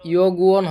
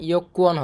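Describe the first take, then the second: First: The middle consonant is a soft g sound. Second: The middle consonant is a hard k sound. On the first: The speaker calls it wrong. "ইয়গুয়ন হবে না" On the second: The speaker calls it right. "ইয়কুয়ন হবে এভাবে"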